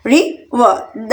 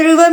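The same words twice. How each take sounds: First: river very slowly in two separate beats; long pause between रि and वर; split into syllables. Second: Said in the usual way. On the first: Shown as a demonstration. Teacher counting out two syllables for learners, syllable by syllable. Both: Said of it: "टू syllable river में भी".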